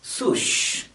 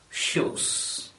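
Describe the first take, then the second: First: The word begins with an s sound. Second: The word begins with an sh sound. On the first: The speaker calls it wrong. "or at least sush" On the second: The speaker calls it right. "instead of shoes"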